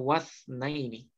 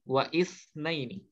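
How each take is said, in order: First: The initial vowel is dropped, linking directly to wa. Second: The initial vowel is pronounced separately after wa. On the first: The speaker calls it right. "maka kita baca wasna ini" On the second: The speaker calls it wrong. "bukan wa isna ini"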